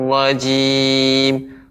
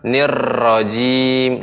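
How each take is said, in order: First: The r is thick with little vibration. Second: The r is trilled with much vibration. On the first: The speaker calls it right. "ro-nya tebal ya" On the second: The speaker calls it wrong. "Ro-nya nggak boleh banyak getaran. ... ini kurang kurang tepat"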